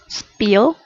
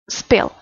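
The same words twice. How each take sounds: First: The vowel is long with spread, smiling lips. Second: The vowel is short with relaxed lips. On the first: The speaker calls it wrong. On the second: The speaker calls it right.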